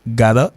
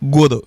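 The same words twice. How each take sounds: First: Gotta said as "GAH-duh"; gotta, open first vowel, tapped middle; first pronunciation demo. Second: Gotta said as "GOH-doh"; gotta, rounded vowel, tapped middle; second pronunciation demo. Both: Shown as a demonstration. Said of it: "il y a deux prononciations".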